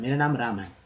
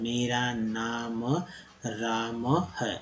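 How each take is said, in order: First: It is read smoothly in one go. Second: It is read slowly, like a beginner child.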